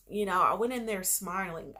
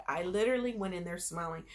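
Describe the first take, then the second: First: Said in the usual way. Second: Quick breathy whisper on literally. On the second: Shown as a demonstration. Retelling her test day, she repeats it in a quick whisper. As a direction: drop to a fast whisper for emphasis.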